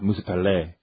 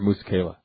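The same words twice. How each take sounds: First: The name is said with a fancy, French-like flair. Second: The name is said plainly, in an American way. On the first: The speaker is trying to sound sophisticated. "What, in France?" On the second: The speaker is a Marine talking casually. "That's what Marines say"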